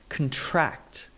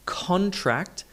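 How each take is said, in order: First: The stress is on the second syllable. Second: The stress is on the first syllable. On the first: It is a verb, meaning to shrink. "to the second syllable" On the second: It is a noun, a written agreement. "stress shifted from the first syllable"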